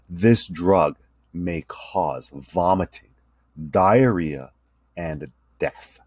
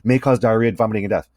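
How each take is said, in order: First: Very slow, drawn-out disclaimer. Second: Quick drug ad disclaimer read; fast disclaimer. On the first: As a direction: stretch every word with long pauses. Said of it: "was slowed down". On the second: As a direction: rush through it like a commercial. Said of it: "they'll increase the rate". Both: Shown as a demonstration.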